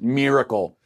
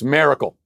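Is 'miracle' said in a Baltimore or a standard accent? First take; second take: standard; Baltimore. First: The word is said in a standard accent. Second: The word is said in a Baltimore accent. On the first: "I'm supposed to pronounce it miracle" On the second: "No, it's miracle. ... my Baltimore accent"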